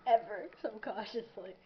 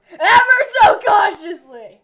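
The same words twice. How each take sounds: First: Said in the usual way. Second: Loud mock dramatic yell; shouted. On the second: Shown as a demonstration. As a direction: belt it out theatrically. Repeat shouted.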